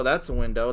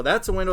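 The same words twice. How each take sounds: First: Said in the usual way. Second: "a" punched higher and louder in "that's a window"; louder, higher "that's a window" in disbelief; exasperated stress. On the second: Retold or imitated. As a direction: hit "a" in "that's a window" with rising frustration. Listing car buttons in frustration.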